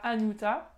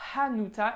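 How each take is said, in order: First: The word begins directly with the vowel. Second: The word begins with an audible H sound. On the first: The speaker calls it wrong. "et pas" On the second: The speaker calls it right. "avec bien le H qu'on prononce"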